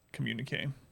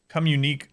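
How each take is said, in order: First: The word does not sound like 'come unique'. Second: The word sounds like 'come unique'. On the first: The speaker calls it right. "I know I know that word in the pronunciation" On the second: The speaker calls it wrong. "Come unique sounds like some kind of unique baby name"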